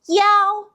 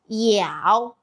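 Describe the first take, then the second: First: The pitch stays high and level. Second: The pitch dips low, then rises.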